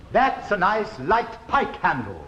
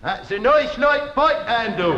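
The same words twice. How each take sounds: First: "that's a nice light pike handle" slow and clear with crisp posh vowels; elocution model. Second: "That's a nice light pike handle" with broad "noice loight" vowels; broad peasant accent. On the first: Shown as a demonstration. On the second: Acted. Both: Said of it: "Listen, boy, listen".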